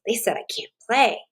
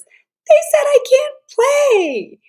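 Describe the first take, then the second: First: Even, steady self-talk in a lightly voiced girl; calmer regulated thought. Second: Put-on high, loud, slow wail of a hurt little girl; upset child's cry. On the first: Girl who learned to self-regulate, thinking it over calmly. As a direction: say it to yourself, noticing and staying calm. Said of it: "And she thinks". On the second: Girl left out of the game, crying it out high and loud. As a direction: wail it like a kid left out on the playground. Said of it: "And the feeling is ... anger".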